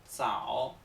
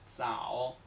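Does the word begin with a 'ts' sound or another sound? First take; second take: ts; ts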